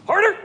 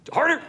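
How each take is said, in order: First: Very high, loud final yell; louder urging shout. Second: Urging shout. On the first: Coach urging a volunteer girl, very high loud yell. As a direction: yell it out even stronger to push her through. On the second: Coach urging a volunteer girl, high loud shout. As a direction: push her on with a sharp high call. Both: Real, not acted.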